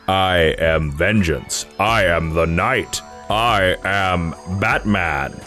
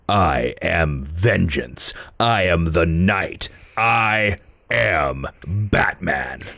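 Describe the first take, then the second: First: It is said in a happy, cheerful tone. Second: It is said in a grim, dark tone.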